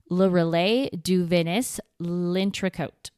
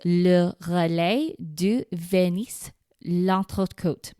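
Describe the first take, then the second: First: The name is said with an American accent. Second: The name is said with a French accent.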